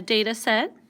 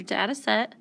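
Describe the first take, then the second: First: DATA set said DAY-tuh set; long a in "data", as in day. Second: DATA set said DAT-uh set; short a in "data", as in cat. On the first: Teacher offering students one of two variants, long-a DAY-tuh for data. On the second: Teacher offering students the other variant, short-a DAT-uh for data. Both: Shown as a demonstration. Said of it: "it's just a different way of saying it".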